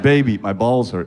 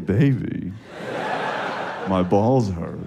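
First: It is said in a pained, worried tone. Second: It is said in a flirtatious, suggestive tone. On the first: It is a real complaint of pain. The speaker calls it right. "I said, listen to my tone" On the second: It is an invitation to sex. The speaker calls it wrong. "I didn't say"

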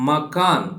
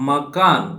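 Both takes have the same delivery.

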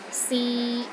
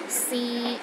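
First: The pitch is steady in the middle range. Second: The pitch is steady in the middle range.

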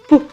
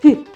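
First: The consonant is hard, not softened. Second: The consonant is soft, palatalized. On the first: "Приголосний твердий" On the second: "Приголосний м'який"

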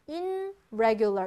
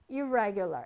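First: The prefix is said with an n sound. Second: The prefix is said with an r sound. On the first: The speaker calls it wrong. "irregular 이러면 어려워요" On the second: The speaker calls it right. "그래서 irregular 이렇게 되는 거예요"

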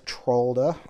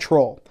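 First: The word ends with an audible D sound. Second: The word ends without any D sound. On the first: The speaker calls it wrong. "I always pronounce the D" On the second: The speaker calls it right. "you're not really supposed to pronounce it"

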